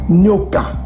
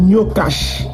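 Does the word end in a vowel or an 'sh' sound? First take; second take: vowel; sh sound. First: The word ends on a vowel sound. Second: The word ends with an 'sh' sound. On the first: The speaker calls it right. "Les Bantous prononçaient ça Nyoka" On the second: The speaker calls it wrong. "on ne peut pas dire Nyokash"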